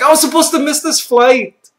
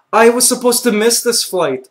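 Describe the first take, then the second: First: High, loud wail of realization; panicked outburst, pitched way up; retold yell. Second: Said in the usual way. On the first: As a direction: yell it out in mock despair. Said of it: "I think I even yelled it out loud".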